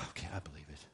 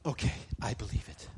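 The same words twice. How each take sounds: First: Low, soft, acted defeat after a sigh; mock-defeated surrender, sunk low; resigned giving in. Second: Acted acceptance after a gasp, fuller voice; quick gasp, then mild agreement; ready acceptance. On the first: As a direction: give in, dropping pitch and volume. Gives in after being called jerk. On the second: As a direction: take it on readily, voice still firm.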